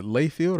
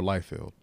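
First: "Layfield" with a long A, like "lay"; LAY pronunciation. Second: "Liefeld" with a long I, like "lie"; LIE pronunciation. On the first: Asking co-hosts about the artist's name, "Layfield" said LAY-field. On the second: Asking co-hosts about the artist's name, "Liefeld" said LIE-feld. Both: Shown as a demonstration. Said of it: "is it Layfield or Liefeld".

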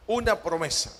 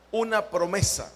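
No difference in how they are said.

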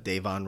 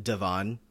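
First: "Davon" as DAY-von, long A; DAY-von pronunciation. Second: "Devon" as duh-VON, short first syllable; de-VON pronunciation. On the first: Shown as a demonstration. Host giving the correct name, "Davon" as DAY-von. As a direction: say "Davon" with first syllable "day". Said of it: "when talking about Davon Rogers". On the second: Retold or imitated. Host quoting a podcaster's error, "Devon" as duh-VON. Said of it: "I hear a lot of Devon".

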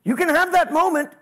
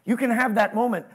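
First: That punched higher and louder; stress on that. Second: Can lightly stressed. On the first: Pastor contrasting two readings of his line, stress on that. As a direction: lean hard on the word that. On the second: Pastor repeating his line with new emphasis, stress on can. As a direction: tip the weight onto can. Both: Shown as a demonstration.

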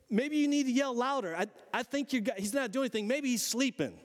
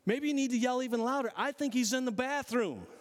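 First: Higher, mocking sarcasm; taunting. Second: Higher, faster mocking jab with a laugh; stronger taunting. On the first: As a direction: needle the priests with sarcasm. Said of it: "this dude had attitude". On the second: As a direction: push the sarcasm harder. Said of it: "that dude's picking a fight".

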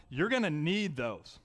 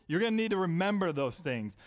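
First: Slowed down, each word weighed; slow emphasis. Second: Said in the usual way. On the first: Shown as a demonstration. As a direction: lean on it slowly to drive it home. Preacher stressing a point.

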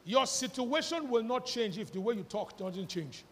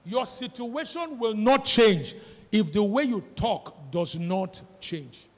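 First: Said in the usual way. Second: Louder, slower, leaning on "not"; slow, weighty "will not change" with "not" stressed; slow emphatic repeat. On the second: Shown as a demonstration. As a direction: hammer home "not" in each clause. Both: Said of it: "I will repeat it again".

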